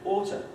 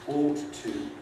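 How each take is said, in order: First: One t sound with a weak schwa vowel. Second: Both t sounds and the full vowel of to are kept. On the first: "you end up with the pronunciation oughta" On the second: "citation forms, the dictionary will tell you"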